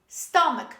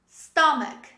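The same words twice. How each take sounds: No difference in how they are said.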